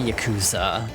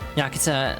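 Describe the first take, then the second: First: The u sound is fully pronounced. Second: The u sound is said very faintly. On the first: The speaker calls it wrong. "it would not be Yakuza, but a lot of people say it that way" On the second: The speaker calls it right. "U sounds in Japanese, when I understand, are often very pronounced very like faintly"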